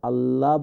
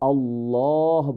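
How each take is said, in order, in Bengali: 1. 'llah' হালকা, মুখ সরু থাকে। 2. 'llah' ভারী, মুখ ভরা থাকে। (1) "আল্লাহ বললে এটা শুদ্ধ হচ্ছে না" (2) "এটাকে আল্লাহ বলতে হবে"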